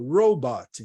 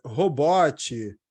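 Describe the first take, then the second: First: "robot" said the English way, ending cleanly on the t; "robot" as ROH-bot with no extra vowel; correct English robot. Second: "robot" as "hobótchi", with a Brazilian r and an extra vowel; wrong Brazilian robot. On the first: Teacher giving students the correct English robot. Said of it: "essa é a pronúncia correta em inglês". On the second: Teacher showing students the wrong way to say robot. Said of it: "em achar que o bot é". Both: Shown as a demonstration.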